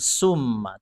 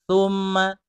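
First: The word begins with a hissing s sound. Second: The word begins with a soft th sound. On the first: The speaker calls it wrong. "Thumma bukan summa" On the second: The speaker calls it right. "ujung lidah ada di ujung gigi atas"

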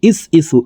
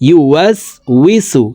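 First: The word starts with 'is', dropping 'yu' and 'w'. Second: The word starts with 'yu', keeping the 'w' sounds. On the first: The speaker calls it wrong. "এইভাবে অশুদ্ধ পড়ে থাকি" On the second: The speaker calls it right. "সঠিকভাবে বলে দিচ্ছি"

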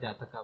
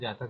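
First: The word ends with an added final 'a' vowel. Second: The word ends in a consonant, no final vowel. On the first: This is how it is said in the English text. "यहाँ पर जातका बोलते हैं" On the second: This is how it is said in Hindi. "Hindi में जातक बोलते हैं"

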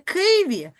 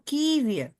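First: The first consonant is hard, not softened. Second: The first consonant is softened before the vowel. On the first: The speaker calls it wrong. "Ми ж чуємо не" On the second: The speaker calls it right. "а чуємо Києві. Тому це в нас буде пом'якшена приголосна"

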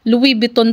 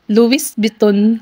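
First: The s at the end of Louis is silent. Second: The s at the end of Louis is pronounced. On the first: The speaker calls it right. "Yun pala, silent S, Louis. Louis Vuitton pa lang pag bigkas niyan" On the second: The speaker calls it wrong. "Nung una ko ding binasa yan, Louis Vuitton. May S kasi, di ba?"

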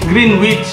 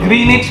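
First: The middle w is pronounced, like 'green witch'. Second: The middle w is silent, like 'grenich'. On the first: The speaker calls it wrong. "Nung bata ako, ang tawag ko sa Greenwich" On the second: The speaker calls it right. "Greenwich pala ang pronunciation. Walang W"

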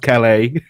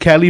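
First: The name is said like "Calais". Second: The name is said like "Kelly". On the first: This is the speaker's own way of saying it. "so I say it as Calais" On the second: This is how the name is said in the game. "I think they pronounce it Kelly"

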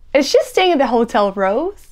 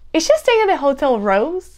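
No difference in how they are said.

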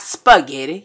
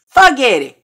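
First: The word has its standard pronunciation. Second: The word has a rural Southern pronunciation. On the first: The speaker calls it wrong. "Not spaghetti" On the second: The speaker calls it right. "We from the country"

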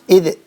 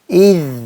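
First: The final consonant bounces with an added vowel. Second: The final consonant flows smoothly without a vowel. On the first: The speaker calls it wrong. "İdi yapmıyoruz. ... Sanki bakın orada bir tümsek oluyormuş gibi" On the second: The speaker calls it right. "bu harfi de biraz akıtıyoruz"

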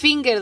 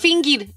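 First: The word is said with an English accent. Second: The word is said with a Spanish accent. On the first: The speaker calls it right. "es finger" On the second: The speaker calls it wrong. "Nomás que no es finger"

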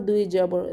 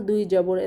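Both takes have the same delivery.

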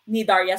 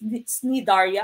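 First: The word begins with an n sound. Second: The word begins with a hard k sound. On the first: "silent C" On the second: "Some people would pronounce this Cnidaria"

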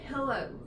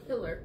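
First: The word ends with an 'oh' vowel sound. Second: The word ends with an 'er' sound. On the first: "Is how you say it, right?" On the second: "I say pillar"

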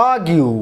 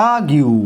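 The two takes are said the same way.

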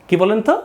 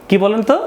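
Both takes have the same delivery.

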